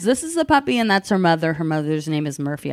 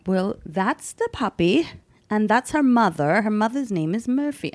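First: Said in the usual way. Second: Terrible put-on British accent; bad British accent. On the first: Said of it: "I'm just gonna talk regular". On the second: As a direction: play the British dog seller with a shaky grasp of the accent. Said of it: "this accent's terrible".

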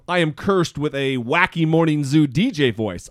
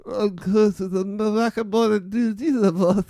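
First: Said in the usual way. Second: Higher, slurred voice with no voice left; slurred sick voice. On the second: Retold or imitated. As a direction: talk as if your voice is gone. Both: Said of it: "Although I said it like".

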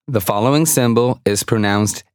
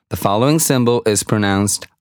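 The two takes are said the same way.

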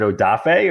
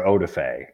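First: Odafe as oh-DAH-fay; middle-syllable stress. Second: Odafe as OH-duh-fay; first-syllable stress. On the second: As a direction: stress the opening OH in Odafe, with a weak middle syllable. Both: Shown as a demonstration. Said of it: "is it Odafe or Odafe".

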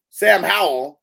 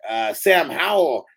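First: Loud, high announcer call; hype announcer shout. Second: Said in the usual way. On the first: Shown as a demonstration. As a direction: belt the name like a ring announcer. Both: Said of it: "wait, hold on".

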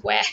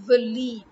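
First: "Walid" opening on wa with a as in cat; mispronounced Walid. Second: "Walid" as vuh-LEED, with a long ee; correct Walid. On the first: Scoffing at the wrong version, mispronounced Walid. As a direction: say "Walid" with a wide flat wa. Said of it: "What is Walid?". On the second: Correcting the wrong version, correct Walid. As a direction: say "Walid" with short uh, stressed leed. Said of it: "It's Walid". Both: Shown as a demonstration.

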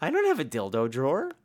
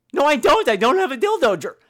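First: Said in the usual way. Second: Higher, louder denial; host loudly denying the gargoyle's claim; indignant protest. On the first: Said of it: "host denies, first take". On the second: Real, not acted. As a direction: protest it's a lie. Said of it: "host denies louder".

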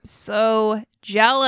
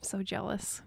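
First: Slow, stretched-out words, fully voiced; long, emphatic, envious sigh of words; drawn-out envy. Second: Barely audible breath of a whisper; hushed, voiceless whisper; whispered envy. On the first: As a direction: drag out each word to show your envy. Repeats the envy out loud. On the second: Acted. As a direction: whisper it under your breath, awed and envious. Envious reaction to caller's accent.

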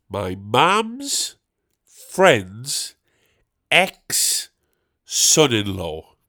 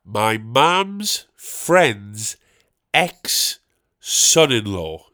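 First: Mum's and friend's rising, ex-son-in-law dragged falling; rising then stretched. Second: My mum's friend's ex-son-in-law, each word stretched slow; slow stressed words. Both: Real, not acted. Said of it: "check this out".

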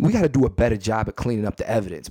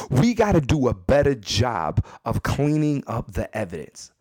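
First: Said in the usual way. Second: Measured, spaced-out delivery of each word; deliberate emphatic repeat. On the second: Real, not acted. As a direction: drive the advice home, word by word.

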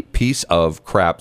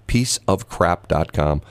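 First: "piece of crap" said slowly, each word spaced; slow spelled out. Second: "Piece of crap dot com" said slowly and evenly; slow announcement. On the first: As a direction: draw out "piece of crap" deliberately. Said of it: "And it's P I E". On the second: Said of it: "announcing the website". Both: Shown as a demonstration.

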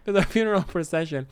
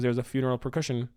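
First: "procession" said with an s sound for the C; corrected "procession", s in the middle, no k sound; corrected soft C. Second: "percussion" said with a hard C, like the drums; mispronounced procession. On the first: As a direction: say "procession" with a soft C, slightly higher. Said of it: "It's a soft C". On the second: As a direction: say "percussion" with a k sound in place of the s. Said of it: "It's not a hard C". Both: Real, not acted.

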